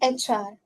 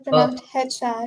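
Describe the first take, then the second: First: The letter H begins with a vowel sound. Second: The letter H begins with an H sound. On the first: The speaker calls it right. "it's pronounced H R ... actually sounds like an A" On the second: The speaker calls it wrong. "it's not pronounced H R"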